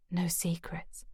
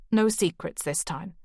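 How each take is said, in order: First: Soft breathy whisper of the words; whispered echo. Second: Said in the usual way. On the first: Acted. Grace echoing Declan's promise to herself, whispering. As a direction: repeat it to yourself under your breath. Narrator echoes his words softly.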